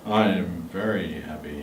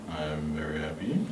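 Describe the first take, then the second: First: Deep and low; low pitch. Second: Breathy low whisper. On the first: the speaker saying happy in a low tone. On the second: the speaker whispering a happy line for the class. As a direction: hush it down. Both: Shown as a demonstration. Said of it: "in a very low tone".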